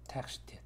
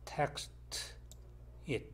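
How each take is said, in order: First: The two words are linked together. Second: The two words are said separately.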